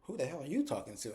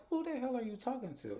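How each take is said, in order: First: Bryce's echo. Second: High-pitched indignant comeback, imitating Angela; Angela's high snap. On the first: Retold or imitated. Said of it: "And he's like". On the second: Angela snapping back at Bryce, high and indignant. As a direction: toss the question back sharply, voice pitched up. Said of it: "And Angela's like".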